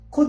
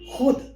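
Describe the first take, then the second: First: The first consonant is an aspirated stop kh. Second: The first consonant is a throaty fricative kh. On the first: The speaker calls it wrong. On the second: The speaker calls it right.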